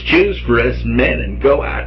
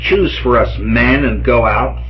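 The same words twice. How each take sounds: First: It is said in a put-on impression voice. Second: It is said in the speaker's ordinary voice. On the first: The speaker calls it right. "I want to make the Heston impression as convincing as I can" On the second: The speaker calls it wrong. "I didn't do that in the right voice"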